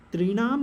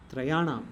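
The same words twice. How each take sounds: First: त्रिणाम stressed as the wrong form, tri-NAAM, a touch louder. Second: त्रयाणाम said calmly as the right form, tra-yaa-naam; correct form. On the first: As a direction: say त्रिणाम firmly as the form to avoid. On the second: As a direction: give त्रयाणाम as the proper answer, falling tune. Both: Shown as a demonstration. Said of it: "not त्रिणाम".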